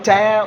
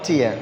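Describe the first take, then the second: First: The vowel sounds like 'air'. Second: The vowel sounds like 'ear'. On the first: It means to rip. "ടിയർ എന്ന് രണ്ട് pronounce ചെയ്യാം" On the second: It means a teardrop. "ഓ ടിയർ"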